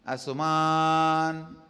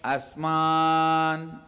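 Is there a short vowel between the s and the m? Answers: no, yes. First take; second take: yes; no. First: A light u sound separates s and m. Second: The s runs straight into the m. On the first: This is the form received from the teachers. "So Padabedam, listen" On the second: This is the original form of the verse. "Asman is the original verse"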